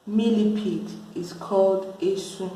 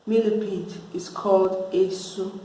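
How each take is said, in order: Both takes have the same delivery.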